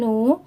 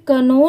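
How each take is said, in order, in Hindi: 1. शब्द n ध्वनि से शुरू होता है। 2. शब्द k ध्वनि से शुरू होता है। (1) "के लेटर साइलेंट है तो यहाँ पर सिर्फ नो ही पढ़ेंगे" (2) "इसे कनो नहीं पढ़ेंगे"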